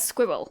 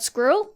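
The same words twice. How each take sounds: First: "squirrel" with the R softened to a W, "squiwwel"; mispronounced squirrel. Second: "squirrel" said as one intended clean word; careful pronunciation. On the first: Showing how it used to come out, mispronounced squirrel. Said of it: "It would only come out as". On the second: Admitting a word they struggled with, careful pronunciation. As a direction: say "squirrel" with its R kept. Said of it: "not being able to say the word". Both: Shown as a demonstration.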